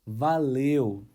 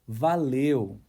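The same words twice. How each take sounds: No difference in how they are said.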